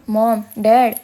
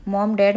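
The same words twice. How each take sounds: First: Louder, a touch of tears breaking through; crying. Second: Mild calling out for mom and dad; calling out loudly. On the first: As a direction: cry out to the parents, understated sobs. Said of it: "शौर्यलाही आता रडू फुटले होते". (रडवेल्या आवाजात हलकीशी हाक) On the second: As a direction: call out to the parents, lightly raised. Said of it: "म्हणून जोरजोरात हाका मारू लागला". (हलकेच जोरात हाक मारत) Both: A narrator's reading.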